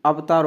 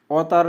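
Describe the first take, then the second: First: अवतार with a separate v sound, av-taar; correct form shown. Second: अवतार with av merged into au, autaar; mispronunciation shown. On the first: Teacher giving learners the accepted form, अवतार said as av-taar. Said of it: "होगा". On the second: Teacher showing learners the rejected form, अवतार said as autaar. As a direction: say अवतार as au-taar, without a v sound. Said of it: "नहीं होगा". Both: Shown as a demonstration.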